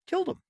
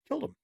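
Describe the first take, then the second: First: Much higher and louder, driving it home; an indignant shout on the last repeat; emphatic outburst. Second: Said in the usual way. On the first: Acted. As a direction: hammer the words in disbelief. Repeating the abortion death toll.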